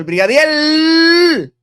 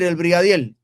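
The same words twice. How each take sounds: First: The final sound is pronounced like an R. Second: The final sound is pronounced like an L.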